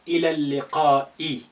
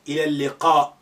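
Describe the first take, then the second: First: The phrase ends with a final 'i' vowel. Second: The phrase ends with a glottal stop.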